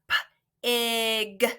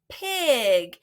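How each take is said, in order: First: The sounds are said apart with a gap. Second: The sounds run together quickly as one word. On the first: "if we put them together, we have" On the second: "Let's say that really fast and blend those sounds together"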